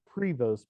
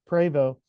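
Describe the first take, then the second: First: The name ends with a sounded 'st'. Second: The name ends in a vowel, 'st' silent. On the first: The speaker calls it wrong. "It looks like Prevost, P R E V O S T" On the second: The speaker calls it right. "it's pronounced in the French pronunciation Prevo"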